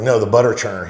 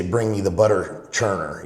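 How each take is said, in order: First: Butter churner pushed out louder; retold correction, noticeably louder on "butter churner"; emphatic correction. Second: Said in the usual way. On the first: Repeating the correction.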